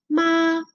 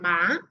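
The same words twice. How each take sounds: First: The pitch stays level throughout. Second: The pitch rises throughout. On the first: It means mother. "tiene el número uno porque es primer tono" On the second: It means hemp. "es un tono que asciende"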